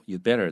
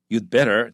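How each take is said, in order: First: Light, even stress, in a mild advising tone. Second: Strong stress on you, in a threatening tone. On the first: It is just friendly advice. "没有那么威胁，你只是建议的话" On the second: Do it right away, or else. "强调 you 哈 you'd better ... 威胁的语气非常强"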